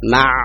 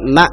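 First: It ends with a voiced mid-throat ain sound. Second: It ends with a glottal catch, a hamzah. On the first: The speaker calls it right. "ain di sini ada aliran suara sedikit sehingga jelas ma" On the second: The speaker calls it wrong. "Jangan sampai ma"

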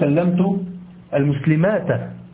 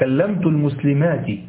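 First: The last word ends with an 'a' vowel. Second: The last word ends with an 'i' vowel. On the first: The speaker calls it wrong. "لا تقول" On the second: The speaker calls it right. "لا،"

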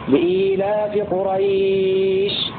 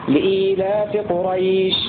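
First: The vowel before the final sh is held moderately. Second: The vowel before the final sh is held briefly. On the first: "أو 4 حركات" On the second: "2 حركات"

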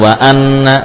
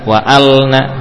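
First: The l sound is dropped entirely. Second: The l is said with no vowel after. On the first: "bukan wa anna" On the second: "bukan juga wa alna"

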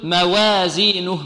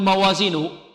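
First: The vowel after the w leans toward e. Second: The w and its vowel sound heavy and darkened. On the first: "يريد أن يرقق الواو فيقول موازينه ... لا هذه إمالة" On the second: "بعض الطلاب يقول موازينه، خطأ"

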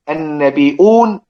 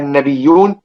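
First: The word has a glottal stop before the ending. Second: The word has no glottal stop before the ending. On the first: "يقرا النبيون والنبيين والانبياء بالهمز" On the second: "الباقون بحذف الهمز"

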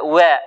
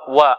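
First: The w vowel is tinged toward a y sound. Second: The w vowel is pure with no y tinge. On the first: The speaker calls it wrong. "هذه واو مشمه بالياء" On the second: The speaker calls it right. "وإنما هي واو"

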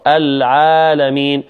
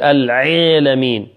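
First: The first consonant is said lightly. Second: The first consonant is pressed hard. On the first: The speaker calls it right. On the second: The speaker calls it wrong.

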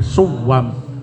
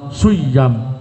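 First: The middle consonant is a w sound. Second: The middle consonant is a y sound. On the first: The original weak letter is kept. "boleh dibaca tashih" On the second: The weak letter is changed. "boleh i'lal"

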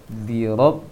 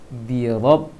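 No difference in how they are said.

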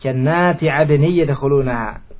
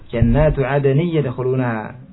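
First: The first word ends with an i vowel. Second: The first word ends with an u vowel. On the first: The noun is the object of an implied verb. The speaker calls it wrong. "dibaca dengan syadz dengan nasab" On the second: The noun is the subject of the sentence. The speaker calls it right. "Di sini dengan rafa"

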